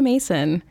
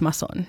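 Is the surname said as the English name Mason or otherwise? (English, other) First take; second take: English; other. First: The surname sounds like the English name Mason. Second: The surname is not said like English Mason. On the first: A simplified version used for casual introductions. The speaker calls it wrong. "I do say Mason to people" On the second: The technically correct form of the name. The speaker calls it right. "But technically it's Masson"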